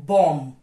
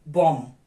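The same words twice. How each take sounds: The two takes are said the same way.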